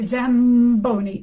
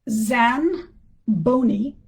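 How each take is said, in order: First: An m sound comes before the b. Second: An n sound comes before the b. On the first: The speaker calls it right. "you say Zamboni, and that's because the B is pronounced at the lips" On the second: The speaker calls it wrong. "you don't say uh"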